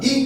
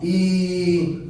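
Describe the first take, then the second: First: Said in the usual way. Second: ई held long and drawn out; prolonged vowel. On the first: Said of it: "मैंने सिखाया था बोलना". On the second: Shown as a demonstration. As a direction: stretch the ई slowly like a chant. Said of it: "अब मैं इसको बोल रहा हूं लंबा". (ई को लंबा खींचकर)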